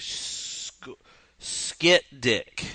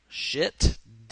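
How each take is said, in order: First: The name begins with an 'sk' sound. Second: The name begins with an 'sh' sound. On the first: "SCH is ski" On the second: "I'm phonetically sounding it out"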